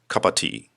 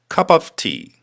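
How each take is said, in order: First: The phrase is said quickly, run together. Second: The phrase is said at a slow, careful pace.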